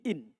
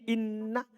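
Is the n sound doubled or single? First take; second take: single; doubled. First: The n is single with no following vowel. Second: The n is doubled and followed by a vowel. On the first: "khafifah. Ringan. Tanpa tasdid" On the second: "dalam keadaan dia sakilah. Bertasdid"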